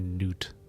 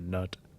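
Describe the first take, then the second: First: The vowel is a long 'oo' sound. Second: The vowel is a short 'uh' sound. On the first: The speaker calls it right. "It's probably Newt" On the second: The speaker calls it wrong. "not Nut"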